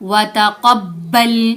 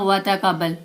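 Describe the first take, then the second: First: The b sound is doubled and pressed. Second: The b sound is short and single. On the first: The speaker calls it right. "क़ाफ को बा से जोर से मिलाना है" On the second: The speaker calls it wrong. "यहाँ क्या गलती करते हैं"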